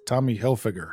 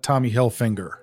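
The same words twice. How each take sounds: First: The surname is said without an n sound. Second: The surname is said with an n sound. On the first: The speaker calls it right. "There's no N" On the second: The speaker calls it wrong. "It's not Tommy Hilfiger"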